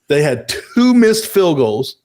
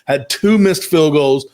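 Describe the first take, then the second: First: It is said more slowly. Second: It is said at a normal pace.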